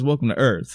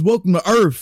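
First: Earth ends with a normal th sound. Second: Earth ends with an f sound, like urf. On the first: This is how the line is actually said. The speaker calls it right. "He says it like a fucking normal human being" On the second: This is the misremembered version of the line. The speaker calls it wrong. "No, he doesn't say that"

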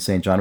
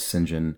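First: The name is said in its ordinary spelled-out form. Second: The name is said in its British given-name form. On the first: The speaker calls it wrong. "rather than" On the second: The speaker calls it right. "when used as a given name, I think is generally pronounced St. John"

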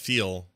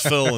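First: The word is said with a standard vowel. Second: The word is said with a Utah vowel.

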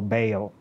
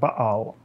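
First: The name is said with the American pronunciation. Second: The name is said without the American pronunciation.

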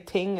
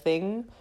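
First: The word starts with a plain t sound. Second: The word starts with a th sound. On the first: The speaker calls it wrong. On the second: The speaker calls it right.

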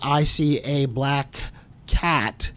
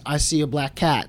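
First: The words are said separately, without linking the k into the next word. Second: The words are linked, with the k running into the next word. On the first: The speaker sounds less fluent. "instead of saying" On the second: The speaker sounds more fluent. "they're connecting the k consonant at the end of the one word to the beginning of the next word"

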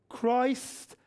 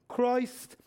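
No difference in how they are said.

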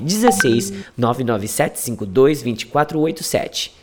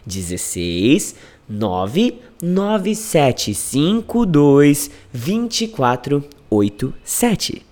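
First: The number is said fast. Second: The number is said slowly.

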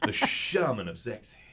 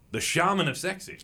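First: It is said in a creepy, sultry tone. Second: It is said in a plain, neutral tone.

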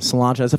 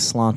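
First: The name ends with a 'cha' sound. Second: The name ends with a 'tee' sound. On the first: The speaker calls it right. "that's a really cool way of pronouncing it" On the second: The speaker calls it wrong. "I just say Slanty"

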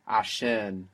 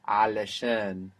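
First: The word is said in a short, contracted form. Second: The word is said in its full, longer form.

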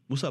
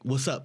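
First: It is said in a quick, offhand way. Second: It is said with real, caring concern.

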